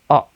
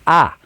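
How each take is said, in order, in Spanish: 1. La vocal es una uh central breve. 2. La vocal es una a abierta española. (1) "es una A gutural" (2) "no es A"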